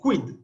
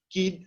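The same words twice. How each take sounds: First: A w sound follows the k. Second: No w sound follows the k. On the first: "la Q la vamos a pronunciar siempre junto con la U" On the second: "de una manera hispanizante"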